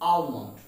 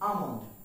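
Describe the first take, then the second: First: The L sound is pronounced. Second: The L sound is silent. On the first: The speaker calls it wrong. "not almond" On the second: The speaker calls it right. "the pronunciation of this word is almond"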